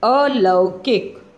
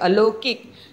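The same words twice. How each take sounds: First: The word is said slowly and carefully. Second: The word is said quickly and hurriedly. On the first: The speaker calls it right. "बोला भी जाता है अलौकिक, इस तरह से" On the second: The speaker calls it wrong. "लोग बहुत फटाफट बोल जाते हैं"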